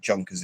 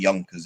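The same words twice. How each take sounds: First: It begins with an English J sound. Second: It begins with a Y sound.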